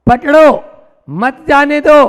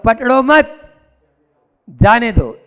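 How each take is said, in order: First: Loud, high "पकड़ो", pause, then forceful "मत जाने दो"; pause after "पकड़ो". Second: "पकड़ो मत" together, long pause, then falling "जाने दो"; group "मत" with "पकड़ो", then release "जाने दो"; pause after "मत". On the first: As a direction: join "मत" to "जाने दो" after a break. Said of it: "ये संसार मार्ग है". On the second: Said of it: "और इसी को ही बोले". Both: Shown as a demonstration.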